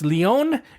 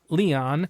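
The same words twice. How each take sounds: First: The name is said the Spanish way. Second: The name is said the English way. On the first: The speaker calls it right. "it's Leon in northwest Spain" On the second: The speaker calls it wrong. "It's not Leon"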